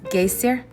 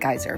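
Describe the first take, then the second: First: The name is said with an Icelandic-style pronunciation. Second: The name is said as the English word geyser. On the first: "I don't know how to say it correctly" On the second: "they don't say it like geyser"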